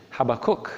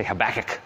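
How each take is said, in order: First: Habakkuk stressed on first and last syllables, HAB-a-KOOK; Habakkuk ending in a clear "kook"; speaker's own pronunciation. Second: Habakkuk stressed on the second syllable, huh-BACK-ick; Habakkuk with a short, stressed BACK in the middle; alternative pronunciation. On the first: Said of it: "how to pronounce his name". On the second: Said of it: "Some people say Habakkuk". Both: Shown as a demonstration.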